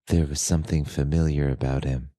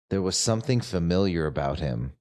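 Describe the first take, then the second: First: It is read in a low, sultry voice. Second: It is read in a plain, ordinary voice.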